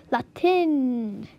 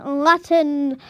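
First: "Latin" said LA-tin; alternative pronunciation. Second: "Latin" said LAH-tn; first pronunciation. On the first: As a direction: say "Latin" with a short a and a clear tin ending. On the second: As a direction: say "Latin" with an ah and a swallowed ending. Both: Shown as a demonstration. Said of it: "Latin or Latin".

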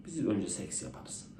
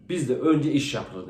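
First: Soft, slow Frenchman voice; slow and softer, in a different timbre, like a suave Frenchman. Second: Slow, measured German voice; German man. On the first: Frenchman's reply in joke. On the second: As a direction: lay down the rule slowly, like a strict German. German in joke states his rule. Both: Acted.

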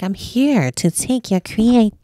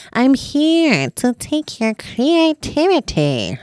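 First: Slow, lightly voiced demon menace; a hint of a looming demon; slow mock demon announcement; art demon voice. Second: Slow, drawn-out demon threat; hammed-up slow demon proclamation; art demon voice. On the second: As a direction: loom over them like a playful demon. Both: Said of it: "like, art demon".

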